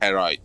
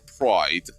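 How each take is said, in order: First: An extra 'e' vowel is added to the word. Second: The word is said without any added vowel. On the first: The speaker calls it wrong. "they pronounce it pride" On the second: The speaker calls it right. "Like you call pride"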